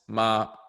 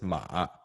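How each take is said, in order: First: It is said with the tone for mom. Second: It is said with the tone for horse. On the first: The word means mom. "like like mom is ma" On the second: The word means horse. "Whereas if you say horse, it's ma"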